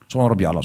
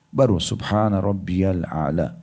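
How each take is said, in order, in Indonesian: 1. Diucapkan dengan cepat dan tergesa-gesa. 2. Diucapkan dengan pelan dan tenang. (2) "Berhenti sejenak"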